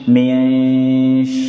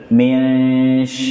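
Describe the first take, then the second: No difference in how they are said.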